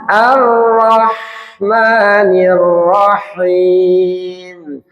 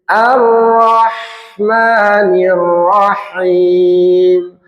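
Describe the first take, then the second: Both takes have the same delivery.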